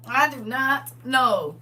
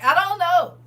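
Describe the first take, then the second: First: I do not know, each word slowed and separated; slow emphatic. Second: Said in the usual way. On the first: Real, not acted. Host insisting she has no idea, slow and deliberate. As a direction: spell it out slowly.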